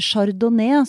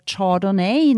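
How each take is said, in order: First: It is said with a traditional Norwegian pronunciation. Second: It is said with an English-style pronunciation. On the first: The speaker calls it right. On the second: The speaker calls it wrong.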